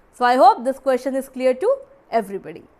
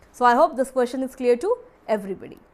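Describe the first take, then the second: The two takes are said the same way.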